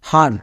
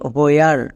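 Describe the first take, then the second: First: It is said without a w sound. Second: It is said with a w sound. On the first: The speaker calls it wrong. "আমরা এই শব্দকে এরকম উচ্চারণ করি না" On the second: The speaker calls it right. "উচ্চারণটা হবে হোয়ার"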